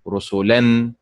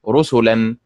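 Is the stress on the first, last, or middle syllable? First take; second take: last; first. First: The stress is on the last syllable. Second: The stress is on the first syllable. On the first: The speaker calls it wrong. "ولا تنطق رسلا مثل فعل" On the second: The speaker calls it right. "الطريقة الصحيحة بالنبر على حركة الراء هكذا رسلا"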